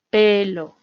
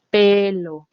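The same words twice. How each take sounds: First: Said in the usual way. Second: Pelo with the opening P pushed and the word a bit louder; stress on P. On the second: Shown as a demonstration. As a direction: lean on the P of pelo. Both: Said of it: "hago énfasis en la P".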